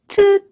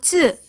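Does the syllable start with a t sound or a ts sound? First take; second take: t; ts. First: The syllable starts with a plain t sound. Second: The syllable starts with a ts sound. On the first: The speaker calls it wrong. "이런 식으로 타 계열로 다 발음을 하세요. 아닙니다" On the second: The speaker calls it right. "요거 츠"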